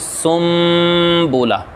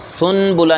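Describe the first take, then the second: First: An m sound comes before the b. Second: A clear n sound comes before the b. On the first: The speaker calls it right. "बल्कि हम पढ़ेंगे सुम बोला" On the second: The speaker calls it wrong. "इसको हम सुन बुला नहीं पढ़ेंगे"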